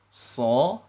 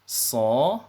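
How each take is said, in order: Both takes have the same delivery.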